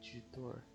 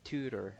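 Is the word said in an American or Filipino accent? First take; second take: Filipino; American. First: It is said in a Filipino English accent. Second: It is said in a native American-style accent. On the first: "That's how we would say it in the Philippines" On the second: "I feel like that's how a native speaker would say it"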